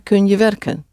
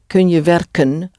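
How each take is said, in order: First: It is said normally with the final N barely heard. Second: It is said slowly with the final N clearly heard. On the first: "But very often, you hardly hear it" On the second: "We're doing it very slowly now, so you hear"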